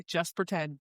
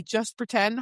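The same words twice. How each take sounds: First: Lightly voiced hero, lower and softer; Hawk. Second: Lightly voiced woman character, usual pitch; Poppy. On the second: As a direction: give a light reading of the heroine's line.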